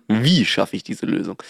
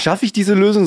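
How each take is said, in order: First: „wie“ kräftig betont, Rest leiser; Betonung auf wie. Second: „schaffe“ betont, hoch ansetzend; Betonung auf schaffe. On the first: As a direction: das Fragewort „wie“ hervorheben. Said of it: "Nicht schaffe ich diese Lösung". (Betonung auf „wie“) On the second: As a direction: das Wort „schaffe“ hervorheben. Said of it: "sondern wie schaffe ich diese Lösung". (Betonung auf „schaffe“, deutlich höher) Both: Shown as a demonstration.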